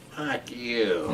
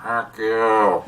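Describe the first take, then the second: First: Quiet, drawn-out imitation of a bird; talking bird. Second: Drawn-out imitation of a bird; talking bird. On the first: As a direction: mimic a bird softly talking back. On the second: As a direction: mimic a bird talking back, stretching the words. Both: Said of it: "what he taught the bird".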